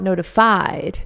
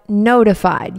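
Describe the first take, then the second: First: The stress falls on an unusual syllable. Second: The stress falls on the usual syllable. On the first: The speaker calls it wrong. "not notified" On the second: The speaker calls it right. "but notified"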